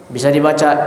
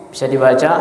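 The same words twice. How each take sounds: Both takes have the same delivery.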